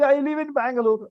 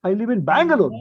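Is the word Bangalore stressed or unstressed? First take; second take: unstressed; stressed. First: No word gets special emphasis. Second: The word Bangalore gets strong emphasis. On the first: A plain everyday statement. "we don't stress it" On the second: Repeating the place for someone who missed it. "So we put stress at that time only"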